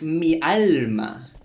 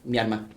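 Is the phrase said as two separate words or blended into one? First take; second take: separate; blended. First: It is said as two separate words, with an l. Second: It is blended into one word, with an r. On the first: "I learned it's mi alma" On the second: "with the pronunciation, it's Myanmar. One word"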